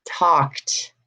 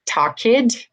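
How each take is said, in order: First: "talked" as one syllable, tawkt; final T sound. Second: "Talked" as higher-pitched talk-id; wrong extra syllable. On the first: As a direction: drop the E in "talked", end on T. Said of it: "I'm saying". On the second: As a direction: sound the E in "Talked" as a second syllable. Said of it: "not saying that". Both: Shown as a demonstration.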